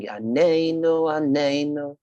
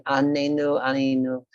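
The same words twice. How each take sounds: First: Higher chanted ANENU with a long stressed NE; sung the correct way. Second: Higher chanted ANENU, stressed on its first syllable; sung the wrong way. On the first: Teacher showing what to sing instead, chanted with stress on NE. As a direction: sing Anenu, stretching the second syllable. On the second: Teacher warning what not to sing, chanted with misplaced first-syllable stress. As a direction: sing Anenu leaning on the opening A. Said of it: "Don't sing". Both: Shown as a demonstration.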